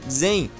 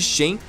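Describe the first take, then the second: First: The name is said in its original way. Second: The name is said in a Portuguese-adapted way. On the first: The speaker calls it right. "a pronúncia correta" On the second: The speaker calls it wrong. "eu opto por falar da maneira errada mesmo"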